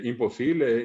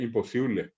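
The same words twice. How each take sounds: First: "imposible" as imposile, the B dropped; imitated mispronunciation. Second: "imposible" with a sound before the L; demonstrated variant. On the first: Teacher showing what people say, imitated. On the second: Shown as a demonstration. Teacher contrasting two ways of saying it, demonstrated. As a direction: say im-po-SI-ble, falling. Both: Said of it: "la gente dice".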